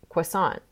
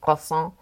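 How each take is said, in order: First: It is said with an American accent. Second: It is said with a French accent. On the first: "when I'm here in America, I'm gonna say croissant" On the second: "I'm not gonna say that croissant"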